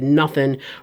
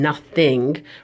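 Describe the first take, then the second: First: It is said with a strong local Philadelphia accent. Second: It is said with a neutral, standard accent. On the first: "you just heard my accent really come through when I said nothing" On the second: "rather than nothing"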